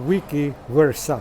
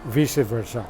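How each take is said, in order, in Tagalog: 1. Ang unang salita ay tunog 'wee-kee'. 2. Ang unang salita ay tunog 'vice'. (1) "ang pag-pronounce po nito nila is wiki versa" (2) "ang pronunciation ko po dito is vice versa"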